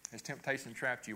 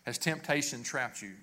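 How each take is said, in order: First: Softer, stress on trapped; softer repeat. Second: Said in the usual way. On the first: Shown as a demonstration. Asking again, hushed and searching. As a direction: pastor quietly repeats the question to the congregation, softer.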